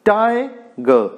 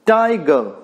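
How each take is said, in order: First: "Tiger" split as a drawn-out TI, then ger; first syllable stressed. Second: Said in the usual way. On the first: Shown as a demonstration. Teacher showing a trochaic word, "Tiger" split with first syllable stressed. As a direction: break "Tiger" into two beats, stressing TI. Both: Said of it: "The first one stressed".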